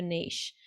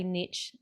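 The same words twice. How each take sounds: First: "niche" said as NEESH, long ee, soft sh; speaker's own pronunciation. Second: "niche" said as NITCH, short i, ch ending; other speaker's pronunciation. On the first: Host saying "niche" her own way, as neesh. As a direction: rhyme "niche" with leash. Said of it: "or as I guess you would say". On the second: Host saying "niche" the listener's way, as nitch. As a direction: rhyme "niche" with pitch. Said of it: "as I guess you would say". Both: Shown as a demonstration.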